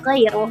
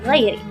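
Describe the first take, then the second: First: The word ends with an 'u' vowel. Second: The word ends with an 'i' vowel. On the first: It is the nominative reading of six reciters. "membaca dengan rafa" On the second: It is the genitive reading of one reciter. "membacanya dengan khafad"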